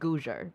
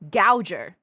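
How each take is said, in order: First: The first vowel sounds like 'oo'. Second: The first vowel sounds like 'ow'. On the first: "I think it's pronounced Googer" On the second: "it is Gow, Gouger"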